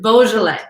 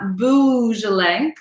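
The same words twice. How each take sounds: First: The first syllable sounds like 'bo', as in bow. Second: The first syllable sounds like 'boo', as in bougie. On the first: The speaker calls it right. "but it is Beaujolais" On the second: The speaker calls it wrong. "So it is not Beaujolais"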